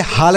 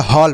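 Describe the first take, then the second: First: हाल with a long open "aa"; wrong vowel demo. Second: हॉल with a rounded "aw"; correct vowel demo. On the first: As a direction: say हाल with "aa", as the mistake. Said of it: "इसे हाल नहीं पढ़ेंगे". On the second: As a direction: say हॉल like English "hall". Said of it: "हॉल पढ़ेंगे". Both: Shown as a demonstration.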